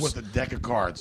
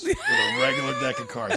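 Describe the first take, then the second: First: Said in the usual way. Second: Much higher, louder, laughing through the words; laughing loudly. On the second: Real, not acted. Laughing loudly while teasing about card tricks. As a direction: burst out laughing as you say it.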